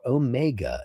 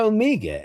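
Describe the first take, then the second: First: It is said with an American pronunciation. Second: It is said with a British pronunciation. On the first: "if you're from the United States" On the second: "if you're from England"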